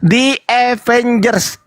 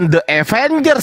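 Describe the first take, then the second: First: The word 'the' has a long 'ee' vowel. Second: The word 'the' has a short 'uh' vowel. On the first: The speaker calls it right. "di bacanya di" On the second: The speaker calls it wrong. "bukan The Avengers, salah"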